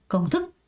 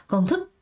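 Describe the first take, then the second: No difference in how they are said.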